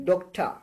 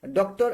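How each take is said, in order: First: "doctor" with the final r dropped; correct "doctor" pronunciation. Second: "doctor" said the students' way, full final r; wrong "doctor" pronunciation. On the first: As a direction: model "dok-ta", no r at the end. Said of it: "আপনি উচ্চারণটা বলেন". (সঠিক উচ্চারণে "ডক্টা", শেষের র ছাড়া) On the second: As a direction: show the mistaken "doktor" with its r. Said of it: "আপনারা বলেন ডক্টর বা ডাক্তার, এরকম না". (ভুল উচ্চারণে "ডক্টর", শেষে র সহ) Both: Shown as a demonstration.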